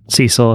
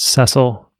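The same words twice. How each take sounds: First: The name is said the American way. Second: The name is said the British way. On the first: "if you're American" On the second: "that's the British way to pronounce it"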